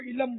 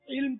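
First: An 'a' vowel splits the final consonants. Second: The final consonants are said together without a vowel. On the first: "یہ پنجابی ہوں گے... زبر پڑتے ہیں" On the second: "ساکین ہوتا ہے وہاں زبر پڑتے ہیں"

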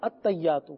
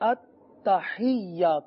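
First: The h is not followed by an i vowel. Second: The h is followed by an i vowel. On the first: This is the common everyday pronunciation. The speaker calls it wrong. "جو سنا جاتا ہے زیادہ تر" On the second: This is the proper pronunciation. The speaker calls it right. "جبکہ ہے التحیات۔ ہا کے نیچے زیر ہے"

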